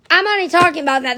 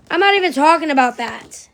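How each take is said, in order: First: Rapid repeat. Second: Said in the usual way. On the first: Real, not acted.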